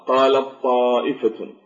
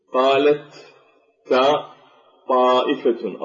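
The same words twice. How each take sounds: First: قالت طائفة with the ت merged into a doubled ط; merged reading. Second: قالت then تاء said apart before طائفة, no merging; each letter sounded separately, slowly; spelled-out letters. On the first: Teacher showing students the merged, doubled ط. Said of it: "فندغم التاء في الطاء فنشدد الطاء". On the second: Teacher breaking قالت طائفة into its letters for students. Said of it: "ولا نلفظ بالطاء ونشدد التاء". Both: Shown as a demonstration.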